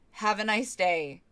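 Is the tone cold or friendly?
cold. It sounds cold and flat.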